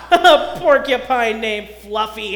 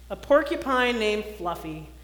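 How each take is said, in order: First: Loud, slow, laughing the words out; howling laughter. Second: Said in the usual way. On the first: A narrator's reading. Rhinoceros mocking Fluffy's name, loud laughing howl. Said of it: "howled the rhinoceros".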